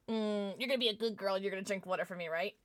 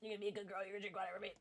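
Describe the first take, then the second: First: Fast, teasing coax; playful coaxing. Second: Much softer, near-whispered coaxing; soft teasing coax. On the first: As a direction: sweet-talk her into drinking water, fast. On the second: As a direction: drop to a hush and coax her gently. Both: Acted. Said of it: "I'm gonna test our relationship right now".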